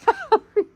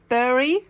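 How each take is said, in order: First: The vowel sounds like the one in 'Barry'. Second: The vowel sounds like the one in 'berry'. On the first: The speaker calls it wrong. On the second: The speaker calls it right.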